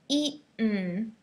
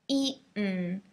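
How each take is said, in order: The two takes are said the same way.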